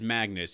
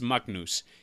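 First: The name is said the English way. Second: The name is said the Icelandic way.

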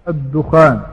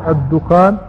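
Both takes have the same delivery.

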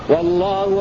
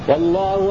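No difference in how they are said.

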